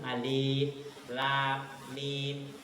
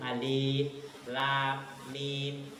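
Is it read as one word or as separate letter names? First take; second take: separate letters; separate letters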